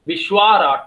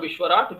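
First: The vowel after 'Vishw' is long. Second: The vowel after 'Vishw' is short. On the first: The speaker calls it right. "the form will be Vishwarat" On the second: The speaker calls it wrong. "not Vishwarat"

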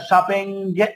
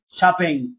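First: The word ends with a hard g sound. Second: The word ends without a hard g sound. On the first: The speaker calls it wrong. "خلي بالكم هنا شوبينج غلط" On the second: The speaker calls it right. "الاي ان جي في الاخر ما انتجاش"

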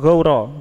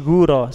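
First: The first syllable is a diphthong 'gau' sound. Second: The first syllable is a short 'gu' sound. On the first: The speaker calls it right. "Gauro, gauro itu adalah dataran rendah" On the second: The speaker calls it wrong. "salah kalau guro"

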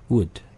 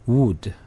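First: The vowel is short and weak, near uh. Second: The vowel is a full, strong oo sound. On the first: The speaker calls it right. "이 발음들도 다 우 발음이 아니라 약한 으 발음입니다" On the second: The speaker calls it wrong. "우 발음으로 읽어버리면"

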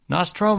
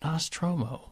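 First: It is said loudly. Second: It is said softly.

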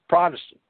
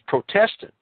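First: The word is said in the usual way. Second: The word is said as 'protest' plus 'ant'. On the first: The speaker calls it wrong. "It is not Protestant" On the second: The speaker calls it right. "It is Protestant"

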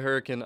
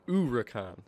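First: The starting H sound is pronounced. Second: The starting H sound is silent. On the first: "Other people say Huracan" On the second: "the H should be silent"

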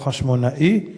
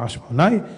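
First: The aleph is sounded, splitting -na-i into two syllables. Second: The aleph is silent, ending in one -nai syllable. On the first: "לא חשמונאי" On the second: "להגיד חשמונאי באלף נחה"

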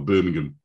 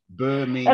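First: The final syllable is weak and reduced. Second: The final syllable 'ham' is fully stressed. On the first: This is the local British way of saying it. "we just do the first bit and then the last bit is sort of like, can't be bothered" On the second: This is the American way of saying it. "So you say Birmingham"

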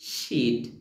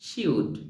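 First: It is said as one contracted word. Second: It is said as two separate full words.

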